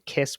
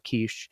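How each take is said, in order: First: The name ends with an s sound. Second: The name ends with an sh sound. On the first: This is the usual English way of saying it. "in English, we normally say Kiss" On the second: This is the original Hungarian way of saying it. "I've been working on my pronunciation"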